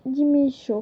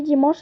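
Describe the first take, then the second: First: "dimanche" altered to "dimi-cho"; invented-language form. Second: Said in the usual way. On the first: Shown as a demonstration. Teacher translating the weekdays, "dimanche" turned into "dimi-cho". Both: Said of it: "ça se dit".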